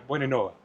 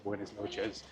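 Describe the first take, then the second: First: The S sounds are dropped and slurred. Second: The S sounds are clearly pronounced. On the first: "they don't even put the S on it" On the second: "in Cuenca they might say"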